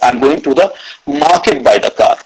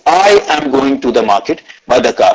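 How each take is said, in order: First: The word 'market' carries the stress. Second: The word 'I' carries the stress. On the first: The destination is the market, not another place. "Third is market" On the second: It is this person, not someone else, going. "I gave stress on the word I"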